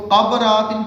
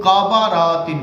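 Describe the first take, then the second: First: قبراتن as kabratin, b and r joined; قبراتن said quickly without an extra vowel; قبراتن in three syllables; first reading. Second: قبراتن as ka-ba-ra-tin, slowed; قبراتن spelled out with an added a-vowel; قبراتن in four syllables; second reading. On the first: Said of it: "کچھ لوگ اس کو قبراتن پڑھتے ہیں". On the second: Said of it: "کچھ اس کو قبراتن پڑھتے ہیں". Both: Shown as a demonstration.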